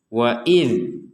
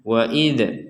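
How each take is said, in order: First: The final consonant ends cleanly without a bounce. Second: The final consonant ends with an echoing bounce. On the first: The speaker calls it right. "tetap dibaca jelas, tidak ada pantulan sama sekali" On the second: The speaker calls it wrong. "kita tidak boleh mengatakan wa idh"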